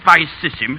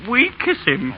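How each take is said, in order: First: The word begins with v and has s sounds. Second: The word begins with w and has k sounds. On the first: This is the old pronunciation. The speaker calls it right. "instead of" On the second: This is the new pronunciation. The speaker calls it wrong. "you'd make him say"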